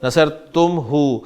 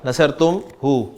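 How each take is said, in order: The two takes are said the same way.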